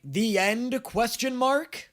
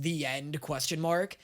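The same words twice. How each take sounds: First: THE END, QUESTION MARK raised high, rising on MARK; questioning title quote. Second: Said in the usual way. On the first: Retold or imitated. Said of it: "T V show endings that do a". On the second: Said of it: "it literally says".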